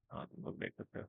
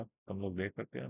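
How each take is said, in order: First: Playful whispered self-answer. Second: Said in the usual way. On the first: Pretend. Teacher answering his own question to viewers, whispered. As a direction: breathe it, no voice at all.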